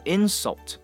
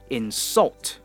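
First: The stress is on the first syllable. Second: The stress is on the second syllable. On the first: It is the noun. "那这是它的名词，叫做insult" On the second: It is the verb. "如果是动词的话呢，我们就会说insult"

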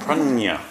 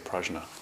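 First: The n is a Spanish-style 'ny' sound. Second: The n is a plain n sound. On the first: "she pronounces it like in Spanish. Like prajna or something. Like a piñata" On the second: "I don't know why we say prajna"

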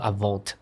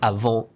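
First: A final T sound is pronounced. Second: The final T is silent. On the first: The speaker calls it wrong. "It's not avant" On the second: The speaker calls it right. "you don't actually pronounce the T"

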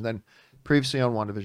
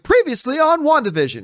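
First: It is said flatly, without enthusiasm. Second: It is said with lively enthusiasm.

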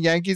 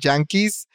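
First: It starts with a plain English Y sound. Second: It starts with a Spanish-style J sound.

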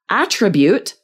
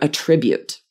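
First: The stress is on the first syllable. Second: The stress is on the second syllable. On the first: It is used as a noun meaning a quality. "the noun where we're stressing that first syllable" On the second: It is used as a verb meaning to give credit. "we use this high-level verb"

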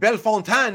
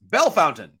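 First: It is said the outsider way, not locally. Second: It is said the way local residents say it. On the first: The speaker is not from the city. The speaker calls it wrong. "it's not Bellefontaine" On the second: The speaker is from the city. The speaker calls it right. "it's Bellefountain"

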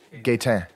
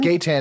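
First: The name is said with a French accent. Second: The name is said with an English accent. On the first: "how do you say it as a Frenchman?" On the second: "If you were saying it with an English"

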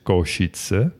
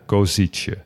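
First: The middle s is said as 'sh'. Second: The middle s is not said as 'sh'. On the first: The speaker calls it right. "Want er staat een dakje op de S" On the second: The speaker calls it wrong. "En niet zoals we in Nederland zouden zeggen"

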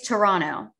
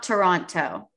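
First: The second T is silent. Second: The second T is clearly pronounced. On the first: The speaker calls it right. "The second T is silent" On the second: The speaker calls it wrong. "It's not Toronto"

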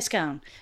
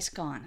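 First: The word is said the American way. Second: The word is said the British way. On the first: "we say scone" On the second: "but they would say scone"

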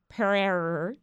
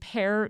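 First: The name is not said like the fruit. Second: The name sounds just like the fruit pear. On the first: The speaker calls it wrong. "in my brain, It's like Pearer" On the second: The speaker calls it right. "It's just pear like the fruit"

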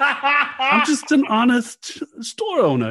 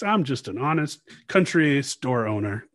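First: It is said in a Long Island accent. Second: It is said in a Southern US accent.

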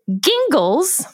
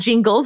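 First: The name begins with a hard g sound. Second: The name begins with a soft j sound. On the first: This is how one justice and the original chief justice said it. "Justice Alito pronounced it Gingles" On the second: This is how nearly everyone says the name. "99% of the United States pronounces it as Jingles"

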